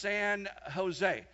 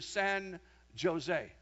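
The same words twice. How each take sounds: First: Jose begins with an H sound. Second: Jose begins with a J sound. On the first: The speaker calls it right. "You don't pronounce the J here. It's pronounced San Jose" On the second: The speaker calls it wrong. "you don't pronounce the J like that"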